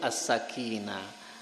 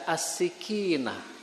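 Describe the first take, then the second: First: The vowel after the first s is 'a'. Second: The vowel after the first s is 'i'. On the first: The speaker calls it right. "jadi yang betul as-sakinah" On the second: The speaker calls it wrong. "jangan sampai salah harokat, karena ada yang baca as-sikinah"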